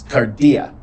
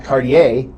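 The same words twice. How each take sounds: First: Cardia ending on a clear open "ah", kar-dee-ah; correct ending cardia. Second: Cardiae with the ending said as "eye", the wrong form. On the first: Teacher giving students the right Greek form, cardia ending in "ah". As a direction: say cardia with the plain "ah" at the end. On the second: Teacher showing students the wrong Greek ending, cardiae said with a final "eye". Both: Shown as a demonstration. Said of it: "It's not cardiae".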